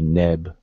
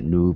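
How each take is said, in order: First: The middle vowel is a short e. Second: The middle vowel is a long oo. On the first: The speaker calls it right. "this particular word will be neb" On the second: The speaker calls it wrong. "and not noob"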